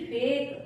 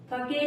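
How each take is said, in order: First: Said in the usual way. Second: फके in two syllables, final e sounded; wrong reading. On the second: Shown as a demonstration. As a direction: misread fake as फके, "fuh-kay". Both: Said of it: "फके नहीं बोलेंगे इसको".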